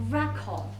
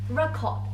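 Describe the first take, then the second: The two takes are said the same way.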